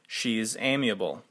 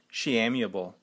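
First: An s sound follows she. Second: No s sound follows she. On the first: The speaker calls it right. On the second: The speaker calls it wrong.

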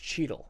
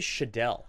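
First: The name is said the plain, usual way. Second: The name is said with an exaggerated, fancy flair. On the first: The speaker calls it right. "It's Cheadle" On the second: The speaker calls it wrong. "extra flair on all these words"

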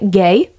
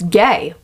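First: The word rises like a question. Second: The word is said flat, without a rise.

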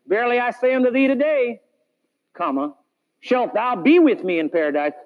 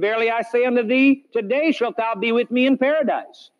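First: The pause comes after 'today'. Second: The pause comes before 'today'.

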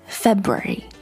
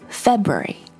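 First: The word is said with three syllables. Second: The same.

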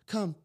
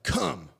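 First: It is said in a friendly, playful tone. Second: It is said in a harsh, commanding tone.

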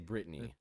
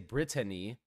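First: The name is said with two syllables. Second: The name is said with three syllables. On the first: The speaker calls it right. "You say Brittany. that's two syllables" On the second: The speaker calls it wrong. "You don't say Brittany"

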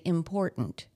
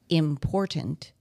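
First: The middle t becomes a glottal stop. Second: The middle t is fully released. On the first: "we say important. That's T-glottalization" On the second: "instead of saying important"

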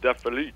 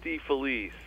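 First: The name is said with Italian pronunciation. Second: The name is said with English-sounding pronunciation. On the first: This is how the name is said in its home country. "if we were in Italy, we would say it something along the lines of" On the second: This is how the family says the name. "I say it DeFelice"

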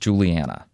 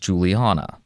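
First: The ending rhymes with the word Montana. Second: The ending rhymes with the word sauna. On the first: The speaker calls it right. "like Montana" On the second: The speaker calls it wrong. "mispronounce my name as Juliana, like sauna"

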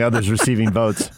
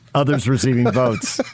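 First: The phrase is spoken at a normal, casual pace. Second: The phrase is spoken slowly with each word articulated.

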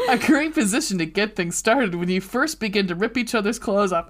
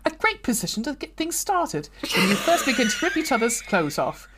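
First: It is said in his normal non-British accent. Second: It is said in a put-on British accent.

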